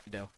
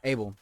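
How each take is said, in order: First: "Adele" said as uh-DELL, with a D; wrong name. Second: "Abel" said as AY-bel, with a B; names him "Abel", AY-bel, not Adele; corrected name. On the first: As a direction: repeats the slip "Adele", uh-DELL. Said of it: "The fuck?". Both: Real, not acted.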